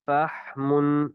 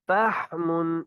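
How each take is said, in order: First: فحم slow, haa breathed freely; open haa. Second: فحم higher, haa choked in the throat; strangled haa. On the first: Teacher shows the right haa, slow and open. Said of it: "اسی طرح یہ ہا کی بھی ادائیگی". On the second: Teacher shows the mistake: a choked haa. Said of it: "اس طرح گلا گھوٹ کر پڑھنا یہ ٹھیک نہیں". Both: Shown as a demonstration.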